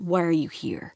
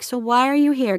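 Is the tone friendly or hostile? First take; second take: hostile; friendly. First: It is said in a hostile, rude tone. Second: It is said in a friendly, nice tone.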